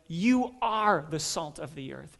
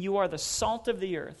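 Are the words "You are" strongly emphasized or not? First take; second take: emphasized; not emphasized. First: The words "You are" are strongly emphasized. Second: The words "You are" are not specially emphasized.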